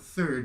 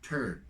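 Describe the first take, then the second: First: It begins with a soft 'th' sound. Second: It begins with a hard 't' sound.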